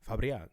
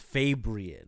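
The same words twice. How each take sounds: First: The name is pronounced with Spanish sounds. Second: The name is pronounced with English sounds. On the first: "how you say in Dominican?" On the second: "English it's"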